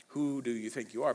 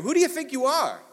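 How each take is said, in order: First: Said in the usual way. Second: Indignant challenge. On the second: Retold or imitated. Repeating the establishment's challenge.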